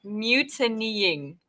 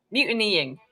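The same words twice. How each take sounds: First: Mutinying drawn out slowly, each syllable spelled out; deliberately slow Mutinying; careful slow try. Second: Said in the usual way. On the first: Shown as a demonstration. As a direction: sound out Mutinying slowly and quietly. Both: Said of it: "brain is just not fully functioning".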